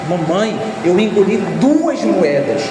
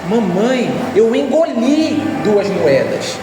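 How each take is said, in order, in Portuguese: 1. A ênfase está na palavra duas. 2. A ênfase está na palavra engoli. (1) "Onde é que está a ênfase? Que foram duas" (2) "Está no fato de eu ter engolido"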